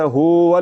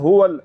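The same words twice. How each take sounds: First: The first vowel is drawn out long. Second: The first vowel is said quickly and short. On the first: The speaker calls it wrong. "पेश को लंबा करने से वाव की आवाज़ बन जाती है ... हुवल ये गलत है" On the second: The speaker calls it right. "बल्कि पढ़ना है हुवल ... हा को जल्दी से पढ़ देना"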